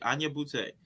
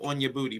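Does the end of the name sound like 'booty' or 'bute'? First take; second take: bute; booty. First: The name ends sounding like 'bute'. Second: The name ends sounding like 'booty'. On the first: The speaker calls it right. "but it's Anya Butte" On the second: The speaker calls it wrong. "I said on your booty"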